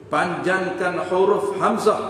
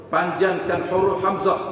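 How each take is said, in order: Both takes have the same delivery.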